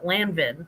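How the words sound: It is said with a Midwestern American pronunciation.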